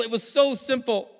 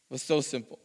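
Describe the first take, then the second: First: Slow and emphatic, higher. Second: Quiet, lower repeat of so simple; soft echo. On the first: Preacher driving home the point to the congregation, emphatic. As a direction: lean into so simple. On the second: Preacher quietly echoing his point to the congregation, soft. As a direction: let it drop to a hush. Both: Acted.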